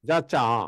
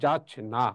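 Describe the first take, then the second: First: It is said as 'jacha' with no 'n' sound. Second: It is said as 'jachna' with an 'n' sound. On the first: The speaker calls it wrong. "আমরা কি যা চা পড়ি? না" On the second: The speaker calls it right. "আমরা পড়ি"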